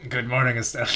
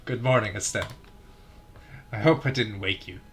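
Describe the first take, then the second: First: Lightly voiced cheerful girl; a first stab at the girl's greeting; first try at Estelle's voice. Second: Second try at Estelle's voice. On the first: Reading Estelle's line to Joshua, lightly voiced. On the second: Retrying Estelle's morning greeting to Joshua, softer. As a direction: try the girl's hello again, gentler. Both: Shown as a demonstration. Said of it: "I can't keep doing it that way".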